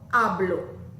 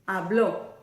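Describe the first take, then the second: First: The stress is on the first syllable. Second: The voice goes up on the last syllable. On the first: The speaker is talking about themselves now. "I'm going to do present tense" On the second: Someone else did it in the past. "Do you hear my voice going up?"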